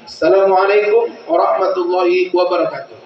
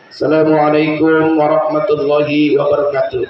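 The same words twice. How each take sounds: First: It is said in a preacher's manner. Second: It is said in a school principal's manner.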